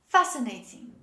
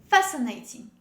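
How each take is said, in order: Both takes have the same delivery.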